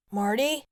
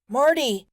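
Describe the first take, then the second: First: Said in the usual way. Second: Higher, louder yell of her name; yelling into phone. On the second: A narrator's reading. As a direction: shout her name down the dead line. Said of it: "He yelled into the phone".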